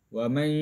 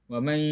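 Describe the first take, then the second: The two takes are said the same way.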